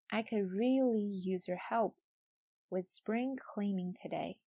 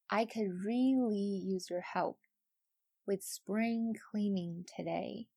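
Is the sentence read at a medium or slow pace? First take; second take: medium; slow. First: The sentence is read at medium speed. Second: The sentence is read slowly. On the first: "我们用比较中等的速度来读一遍" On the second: "我们再次慢速的读一遍"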